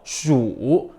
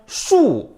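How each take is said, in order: First: The pitch dips low and then rises. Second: The pitch falls sharply from high to low. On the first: "삼성" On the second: "사성"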